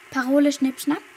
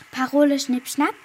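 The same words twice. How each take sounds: The two takes are said the same way.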